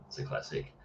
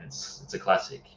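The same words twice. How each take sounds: First: Breathy whisper, almost to himself; whispered echo. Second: Said in the usual way. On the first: Real, not acted. Echoing his own verdict on a favourite Western in a whisper. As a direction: let the repeat fall away to a whisper.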